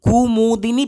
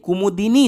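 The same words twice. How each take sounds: First: The first u vowel is drawn out long. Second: The first u vowel is kept short. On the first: The speaker calls it wrong. "थोड़ा लंबे समय तक पढ़ते हो" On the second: The speaker calls it right. "नहीं कुमुदिनी होता है"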